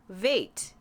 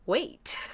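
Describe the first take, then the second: First: The word begins with a V sound. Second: The word begins with a W sound. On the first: "in Telugu, the W and the V are interchangeable" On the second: "is really wait"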